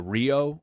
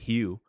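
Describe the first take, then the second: First: It is said with an English accent. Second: It is said with a Portuguese accent.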